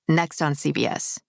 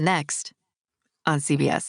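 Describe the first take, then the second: First: The phrase runs together without any pause. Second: There is a tiny pause inside the phrase. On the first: The speaker calls it right. "like all in one" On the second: The speaker calls it wrong. "Don't do the"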